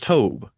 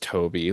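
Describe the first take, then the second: First: The name is said with one syllable. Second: The name is said with two syllables. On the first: The speaker calls it right. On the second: The speaker calls it wrong.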